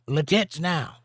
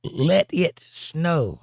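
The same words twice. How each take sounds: First: "Le tits now" with the words run together wrong; wrong syllable stress. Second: "Let it snow" drawn out slowly, stress on "Let"; slow corrected reading. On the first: Host misreading the chat line, garbled "Le tits now". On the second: Host correcting his misread, slow "Let it snow". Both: Shown as a demonstration. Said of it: "I put the emphasis on the wrong syllable".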